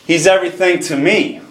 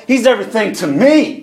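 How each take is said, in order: First: Said in the usual way. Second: "me" punched high at the end; stress on ME. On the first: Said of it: "Did you catch that?". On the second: Shown as a demonstration. Preacher making the song personal for the congregation, stress on "me". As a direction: raise the pitch and lean on "me". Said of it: "Not to my brother, not to so-and-so".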